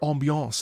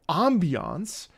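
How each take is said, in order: First: The word has a French pronunciation. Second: The word has an English pronunciation.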